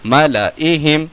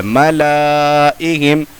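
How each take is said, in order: First: मलाइहिम with short ला; measured मलाइहिम, alif silent; correct recitation. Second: मलाइहिम with ला held very long; slow chanted मलाइहिम, alif sounded; written-form reading. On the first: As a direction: keep ला brief before इहिम in मलाइहिम. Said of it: "पढ़ने का तरीका". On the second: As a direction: stretch ला before इहिम in मलाइहिम. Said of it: "इसके अंदर लिखा हुआ है". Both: Shown as a demonstration.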